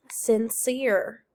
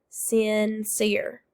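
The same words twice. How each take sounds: First: Said in the usual way. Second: SINCERE drawn out as sin, then cere; split into syllables. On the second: Shown as a demonstration. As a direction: say "Sincere" in two separate beats. Teacher models word, then syllables.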